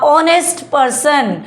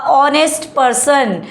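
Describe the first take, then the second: The two takes are said the same way.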